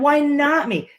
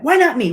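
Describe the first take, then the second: First: It sounds defeated and self-pitying. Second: It sounds driven and determined. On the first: The speaker feels like a victim of bad luck. "a victim's mentality of, "Ugh" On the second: The speaker believes they can succeed. "that statement of drive"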